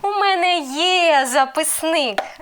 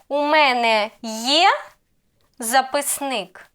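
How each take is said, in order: First: The pitch stays level on є, statement tune. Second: The pitch rises on є, question tune. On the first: It states that the speaker has a notebook. "And the answer will be" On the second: It asks whether the speaker has a notebook. "I raise intonation on, on є"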